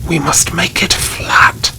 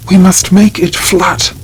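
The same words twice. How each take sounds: First: Hoarse whisper. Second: A high, loud demand to flatten the grave; shouting. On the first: Baron treading the grave earth, hoarse whisper. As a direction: repeat it as a rasping whisper. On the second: Crazed baron at the grave, high loud shout. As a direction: call it out hard and high, like an order. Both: A narrator's reading. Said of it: "the Baron shouted".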